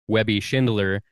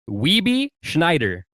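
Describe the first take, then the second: First: The name is said with 'Webby' and 'Schindler'. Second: The name is said with 'Weeby' and 'Schneider'. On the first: The speaker calls it right. "my name shows up on pickleball tournaments dot com as" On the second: The speaker calls it wrong. "it was pronounced"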